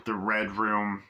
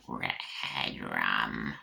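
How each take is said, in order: First: Said in the usual way. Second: Very low, drawn-out spooky voice; creepy croak. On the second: Pretend. Aside on the crime-scene Red Room, deep spooky voice. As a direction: stretch it out deep and ominous. Joke voice, then says sorry.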